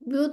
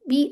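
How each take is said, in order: First: The 'b' is said heavy and thick. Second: The 'b' is said light and thin. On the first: The speaker calls it wrong. "ऐसे नहीं पढ़ना" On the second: The speaker calls it right. "तो इसको आपने कहना है बी"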